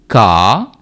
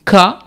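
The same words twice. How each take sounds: First: కా with a stretched aa; long vowel. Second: క cut short; quick brief vowel on క. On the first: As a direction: hold the vowel of కా. (కా దీర్ఘంగా పలకండి) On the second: (క హ్రస్వంగా పలకండి) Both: Shown as a demonstration. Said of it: "ఇలా చెప్తాం".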